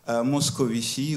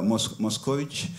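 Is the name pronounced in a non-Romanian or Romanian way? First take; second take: non-Romanian; Romanian. First: The name is said without Romanian pronunciation. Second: The name is said with Romanian pronunciation.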